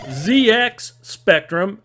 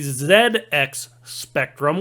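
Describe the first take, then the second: First: Z is said 'zee', the American way. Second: Z is said 'zed', the British way.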